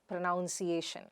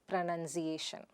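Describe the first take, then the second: First: The second syllable sounds like 'noun'. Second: The second syllable sounds like 'nun'. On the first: The speaker calls it wrong. "We say pronoun, pronounced, pronouncing, but not pronunciation" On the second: The speaker calls it right. "but pronunciation"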